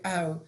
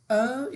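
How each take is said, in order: First: "او" as the ah-oo glide of "now". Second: Slow long "oh" sound for "او". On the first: Teacher contrasting two OW sounds, "او" as AU. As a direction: open "ow" diphthong for "او". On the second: Teacher contrasting two OW sounds, "او" as long O. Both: Shown as a demonstration. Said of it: "حرف او دو صدا داره".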